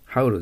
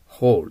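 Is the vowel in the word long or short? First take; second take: short; long. First: The vowel is short and clipped. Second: The vowel is long and drawn out. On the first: The speaker calls it wrong. "haul じゃなりません。" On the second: The speaker calls it right. "au だから伸びます。"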